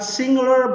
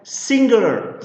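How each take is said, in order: First: The ng is said without a following g sound. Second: The ng is followed by a clear g sound. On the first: The speaker calls it wrong. "This is not singular" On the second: The speaker calls it right. "but singular"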